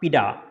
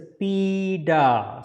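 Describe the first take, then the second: First: The vowel is said short. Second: The vowel is held longer. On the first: The speaker calls it wrong. "not pida" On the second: The speaker calls it right. "So this sound will get a little bit longer"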